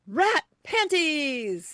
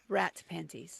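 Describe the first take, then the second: First: It is said in an excited, lively way. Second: It is said in a calm, plain way.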